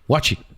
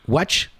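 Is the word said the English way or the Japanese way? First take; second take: Japanese; English. First: It ends with an added vowel, Japanese style. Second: It ends on a bare consonant, English style.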